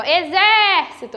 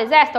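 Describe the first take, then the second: First: "exército" with ZÉ drawn out and open; called-out "exército", long stressed é; calling the word. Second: Said in the usual way. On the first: Shown as a demonstration. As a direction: stretch the second syllable of "exército" as if calling it. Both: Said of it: "quando eu chamei pela palavra".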